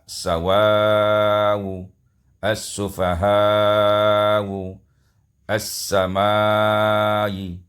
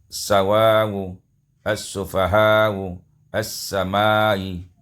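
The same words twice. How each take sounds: First: The final vowel is held moderately long. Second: The final vowel is held only briefly. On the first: "panjang harkatnya tawassut" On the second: "dibaca qasar dua harkat"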